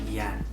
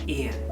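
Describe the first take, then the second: First: The name begins with a y sound. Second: The name begins with an ee sound. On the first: The speaker calls it wrong. "it's not Yen" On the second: The speaker calls it right. "the Y is pronounced like E"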